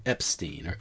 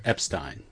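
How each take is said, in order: First: "Epstein" ending in "steen"; "Epstein" rhyming its ending with "seen"; steen pronunciation. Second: "Epstein" ending in "stine"; "Epstein" rhyming its ending with "mine"; stine pronunciation. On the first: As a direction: say "Epstein" with a long ee in the last syllable. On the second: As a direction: say "Epstein" with a long i in the last syllable. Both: Shown as a demonstration. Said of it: "However you want to pronounce it".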